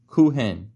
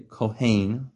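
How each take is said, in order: First: The second syllable has a short 'e' vowel. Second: The second syllable has an 'ai' vowel. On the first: This is how Persian speakers say it. "say Kohen or Kuhen. Kuhen, a lot of the times" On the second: "you don't say Kohain, certainly not, that's Ashki"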